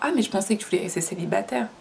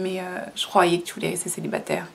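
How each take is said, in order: First: It sounds like a sincere, genuine question. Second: It sounds like a passive-aggressive jab.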